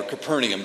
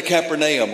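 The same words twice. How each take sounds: First: CAPERNAUM in the alternative pronunciation. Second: CAPERNAUM in the first of two pronunciations; first pronunciation variant. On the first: Preacher offering church another reading, alternative variant of Capernaum. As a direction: say Capernaum the other school's way. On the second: Preacher reading Luke to church, first variant of Capernaum. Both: Shown as a demonstration. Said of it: "depending on where you went to school".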